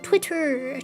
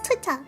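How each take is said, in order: First: It is said in a put-on, different accent. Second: It is said in the speaker's usual accent. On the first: "If I try to say it like someone without a Roosevelt accent" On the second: "But no, it's Twitter. Just like water"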